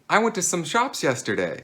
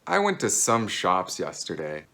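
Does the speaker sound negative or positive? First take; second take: positive; negative. First: It is said in a happy, positive tone. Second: It is said in a negative-sounding tone. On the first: More than one shop was visited. "you sound very happy and positive" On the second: The shops were not important. "this kind of sounds negative"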